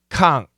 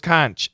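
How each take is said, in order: First: The word ends with a k sound. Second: The word ends with a ch sound. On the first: The speaker calls it right. "it's a hard C H. It's a K" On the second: The speaker calls it wrong. "I thought it was conch"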